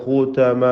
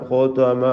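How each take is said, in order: No difference in how they are said.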